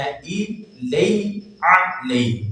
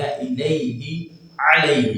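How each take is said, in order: First: الیہ and علیہ very slow, hamza and ain kept distinct; correct recitation. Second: الیہ with hamza and zer, علیہ with ain and zabar, slowly; correct recitation. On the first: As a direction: drag out الیہ علیہ to show the contrast. (الیہ علیہ آہستہ واضح) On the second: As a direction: separate الیہ and علیہ clearly. (الیہ اور علیہ میں فرق) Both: Shown as a demonstration. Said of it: "درست تلفظ اس کا یہ ہے الیہ علیہ".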